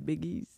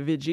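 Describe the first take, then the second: First: The word begins with a B sound. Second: The word begins with a V sound. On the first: "ils disaient biggies" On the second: "au lieu de dire euh, veggies"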